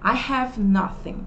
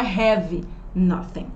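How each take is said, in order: First: The word 'have' is softened and light. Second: The word 'have' is strong and heavy. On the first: The speaker calls it right. "a gente precisa suavizar esse nosso have" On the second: The speaker calls it wrong. "E não"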